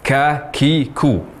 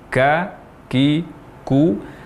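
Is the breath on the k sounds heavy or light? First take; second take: heavy; light. First: The k sounds carry a heavy rush of breath. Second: The k sounds carry only a light breath. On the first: The speaker calls it wrong. "mengucapkan huruf kaf dengan hamas atau aliran nafas secara berlebihan. Misal yang salah" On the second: The speaker calls it right. "Yang tepat"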